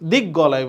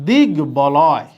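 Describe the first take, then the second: First: The b is replaced by a doubled g sound. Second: The b sound is kept after the g. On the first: The speaker calls it wrong. "দিক গলয় বলি তাহলে ভুল হবে" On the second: The speaker calls it right. "তাহলে এটা হবে দিক বলয়"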